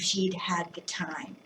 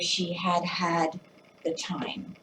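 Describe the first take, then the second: First: The words are run together and contracted. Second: Every word is said in full, separately.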